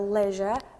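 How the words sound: It is said with a British pronunciation. "the British say"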